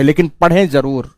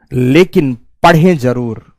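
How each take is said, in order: First: Said in the usual way. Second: Each word of "लेकिन पढ़ें जरूर" drawn out, lower; slow emphatic repeat. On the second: Real, not acted. Teacher urging working students to read, "पढ़ें जरूर" slow and weighty. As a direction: spell it out slowly, weight on "पढ़ें".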